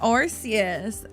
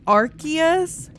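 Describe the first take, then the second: First: The c is said as an s sound. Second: The c is said as a k sound. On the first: "I say Arceus. Arceus sounds good to me" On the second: "It's supposed to be Arceus? ... Technically, it's with a K"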